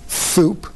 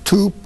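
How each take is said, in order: First: The first consonant is a th sound. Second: The first consonant is a t sound. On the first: A lisp that is fine at three. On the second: A later stage with an easier sound.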